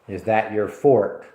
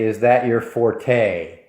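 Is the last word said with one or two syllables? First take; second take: one; two. First: The last word has one syllable. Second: The last word has two syllables. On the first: The speaker calls it right. "The correct pronunciation is fort" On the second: The speaker calls it wrong. "That's not correct"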